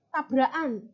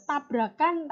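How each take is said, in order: First: Tabrakan said as tabraan, the k swallowed; Javanese-style tabrakan, no k before -an; dropped k. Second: Said in the usual way. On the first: Shown as a demonstration. Teacher contrasting dialects for class: tabrakan without the k. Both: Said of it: "ketika orang Jawa yang melafalkan".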